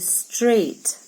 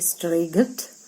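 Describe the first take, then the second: First: No g sound is heard in the word. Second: A g sound is heard in the word. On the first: The speaker calls it right. "I say straight" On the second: The speaker calls it wrong. "I do not hear this because I do not say straight"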